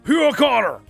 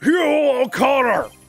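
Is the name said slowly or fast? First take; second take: fast; slowly. First: The name is said at a faster pace. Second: The name is said at a slower pace.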